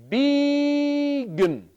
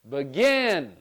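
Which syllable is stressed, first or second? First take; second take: first; second. First: The stress is on the first syllable. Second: The stress is on the second syllable. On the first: The speaker calls it wrong. "Let's try it the other way... I'll change the second syllable, the vowel, the I, to uh" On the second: The speaker calls it right. "with the second syllable, I'm going to say that one louder, longer, and higher"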